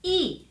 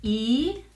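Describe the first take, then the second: First: The syllable is said with the fourth tone. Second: The syllable is said with the second tone. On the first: "and fourth"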